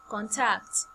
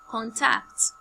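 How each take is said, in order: First: The first syllable is low, the second high. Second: The same.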